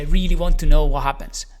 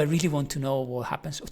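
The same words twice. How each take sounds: First: It sounds curious with much higher intensity. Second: It sounds curious with low intensity. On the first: "to like, oh my gosh" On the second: "a level of power of one"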